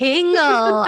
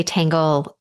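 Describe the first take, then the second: First: "Tingle." repeated high through a laugh, with a short clear i. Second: "tangle" said with a clear open a as in tan, the way it was misheard; misheard word. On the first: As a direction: echo "Tingle." amused, laughing as you say it. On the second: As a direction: say "tangle", the misheard version of tingles, with a plain a. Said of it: "When I say tangle". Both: Retold or imitated.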